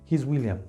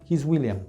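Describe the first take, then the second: Both takes have the same delivery.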